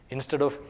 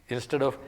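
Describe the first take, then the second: No difference in how they are said.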